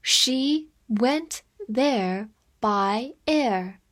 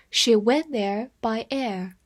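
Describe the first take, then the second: First: Very slow, careful sentence reading. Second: Said in the usual way. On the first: Shown as a demonstration. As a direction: draw every word out for learners. (慢速朗读) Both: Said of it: "我们慢慢来读".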